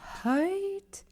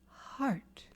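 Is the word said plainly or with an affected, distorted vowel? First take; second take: affected; plain. First: The vowel is distorted, like a put-on accent. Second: The word is said plainly with a clear vowel. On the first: The speaker calls it wrong. "No, no, not them. It's height" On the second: The speaker calls it right. "If you're singing the word heart, you say heart"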